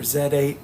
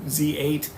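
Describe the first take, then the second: First: The letter is said the British way, as zed. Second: The letter is said the American way, as zee. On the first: "we've got some overseas listeners, so nod to you" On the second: "depending on how you want to pronounce it"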